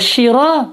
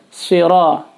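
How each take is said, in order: First: It begins with a sh sound. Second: It begins with a heavy emphatic s sound. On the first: The speaker calls it wrong. "shiro pakai shin" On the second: The speaker calls it right. "jadi harus siro, si, sod"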